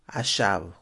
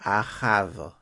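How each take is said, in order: First: The name is said in its French form. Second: The name is said in its Hebrew form.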